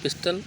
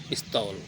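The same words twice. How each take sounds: First: "पिस्टल" with hard t, short final vowel; English-style "पिस्टल", unstressed last syllable; English pronunciation. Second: "पिस्तौल" with dental t, long au; Hindi-style "पिस्तौल", long last syllable; Hindi pronunciation. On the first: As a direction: say "पिस्टल" as pis-tul. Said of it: "उच्चारण अंग्रेजी में होता है". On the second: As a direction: say "पिस्तौल" as pis-taul. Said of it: "Hindi में होता है". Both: Shown as a demonstration.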